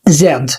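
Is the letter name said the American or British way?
British. It is said as zed, ending in d. "في البريطاني"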